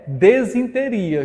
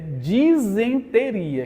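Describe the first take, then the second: First: The word begins with the sounds 'desin'. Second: The word begins with the sounds 'disen'. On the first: The speaker calls it wrong. "não é desinteria" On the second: The speaker calls it right. "É disenteria"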